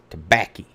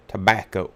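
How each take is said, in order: First: "tobacco" said as "tobaccy"; folksy pronunciation. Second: Said in the usual way. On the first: Shown as a demonstration. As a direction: end "tobacco" in a folksy -ee sound. Joky folksy form, then standard word.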